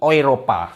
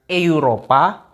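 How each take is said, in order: First: The word begins with an 'oi' vowel. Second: The word begins with a plain 'e' vowel. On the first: The speaker calls it right. "tapi Eropa" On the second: The speaker calls it wrong. "Jadi bukan Eropa"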